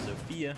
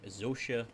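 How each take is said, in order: First: The name is said with an English-style f sound. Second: The name is said with a Polish-style soft s sound.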